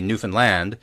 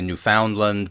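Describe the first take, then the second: First: The ending rhymes with understand. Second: The ending does not rhyme with understand. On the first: This is how locals say it. The speaker calls it right. "remember that Newfoundland rhymes with understand" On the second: This is how outsiders say it. The speaker calls it wrong. "A lot of people say Newfoundland, but that's not how they say it in Newfoundland"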